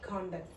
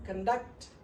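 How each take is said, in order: First: The stress is on the first syllable. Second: The stress is on the second syllable. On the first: It is a noun meaning behaviour. "ఇక్కడ first syllable మీద stress ఉంది" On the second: It is a verb meaning to carry out. "ఇది stress conduct"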